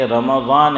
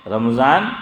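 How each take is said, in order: First: "رمضان" slowly as ra-ma-zaan; correct Arabic pronunciation. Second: "رمضان" as ram-zaan, meem without a vowel; common mispronunciation. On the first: Preacher giving the corrected word, careful Arabic pronunciation. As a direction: put a short a after the meem in "رمضان": ra-ma-zaan. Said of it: "زبر جو ہے وہ میم پر آیا". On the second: Preacher rejecting the everyday form, wrong pronunciation. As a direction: say "رمضان" in two syllables, ram-zaan, rising. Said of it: "نہیں ہے". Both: Shown as a demonstration.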